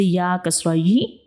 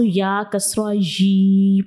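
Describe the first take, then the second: First: The final vowel is cut off with a jerk. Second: The final vowel is stretched out long. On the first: "इसको झटका लगा के भी नहीं पढ़ना" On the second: "हम ज़बर ज़ेर की अलामत को लंबा कर देते हैं, साउंड को लंबा कर देते हैं"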